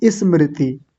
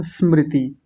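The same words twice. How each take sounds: First: स्मृति with an i added in front, "ismriti"; mispronounced स्मृति. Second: स्मृति starting straight on s, no vowel before it; correct स्मृति. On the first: Retold or imitated. Teacher copying how many people say it, स्मृति as "ismriti". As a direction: put a wrong i before स्मृति. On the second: Shown as a demonstration. Teacher citing a familiar word, correct स्मृति without leading i. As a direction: say स्मृति with a pure initial sm cluster. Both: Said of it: "ई लगा देते हैं शुरू में".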